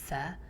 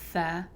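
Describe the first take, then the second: First: The consonant has a whistling hiss. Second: The consonant has no whistling hiss. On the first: The speaker calls it wrong. "if you add that to a tha and say th, tha, then it's crossing over into sin territory" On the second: The speaker calls it right. "you don't want to add a whistling sound to tha"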